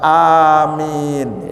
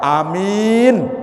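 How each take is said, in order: First: The first vowel is long, the second long. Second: The first vowel is short, the second long. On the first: It means: answer our prayer. The speaker calls it right. "yang benar itu A-nya panjang, min-nya panjang" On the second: It means a person who is safe. The speaker calls it wrong. "A-nya pendek, mimnya yang panjang"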